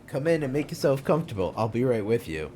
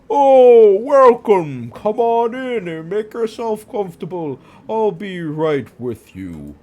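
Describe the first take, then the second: First: It is said in his normal voice. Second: It is said in a put-on Santa voice.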